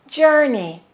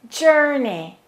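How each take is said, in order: Both takes have the same delivery.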